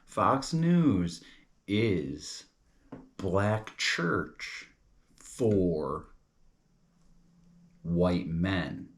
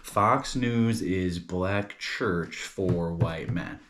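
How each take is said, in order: First: Word by word with long pauses; slow, deliberate spelling-out. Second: Drawn-out but connected phrase; recap in one run. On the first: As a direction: lay out each piece for the listener to follow. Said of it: "Now follow this". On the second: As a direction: go over it slowly without long breaks. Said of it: "let's go over this". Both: Shown as a demonstration.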